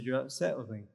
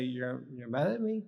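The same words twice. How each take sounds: First: Falling statement tune on upset. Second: Rising question tune on mad at me; asked as a question. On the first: Trainer showing the statement version. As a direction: state it flatly, no question. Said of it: "Statement allows you to look at yourself". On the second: Trainer showing the question version. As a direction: ask it, don't state it. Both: Shown as a demonstration.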